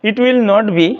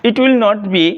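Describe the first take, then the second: The two takes are said the same way.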